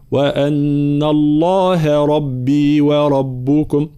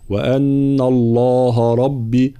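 First: الله with a light ه, slow and drawn; correct recitation. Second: الله with the final ه darkened, slow; wrong heavy ha. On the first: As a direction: recite الله with a thin ه, unhurried. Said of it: "لا". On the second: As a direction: read الله with a heavy ه as a mistake. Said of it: "لا نقول". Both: Shown as a demonstration.

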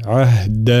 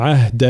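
First: عهد with a clear, firm d; careful عهد, dal kept distinct from ta; correct voiced dal. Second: عهد with the d blurred towards t; mispronounced عهد, d losing its voicing; faulty weak dal. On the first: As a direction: give عهد a fully voiced, stopped d. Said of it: "هذا صوت الدال". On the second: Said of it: "فهنا لا نقول مثلًا". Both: Shown as a demonstration.

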